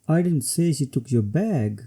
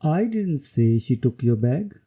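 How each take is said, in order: First: The word bag is stressed. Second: The word I is stressed. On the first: Maybe she took something else. "Here the emphasis is on bag" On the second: Somebody else said it. "When emphasis is on I"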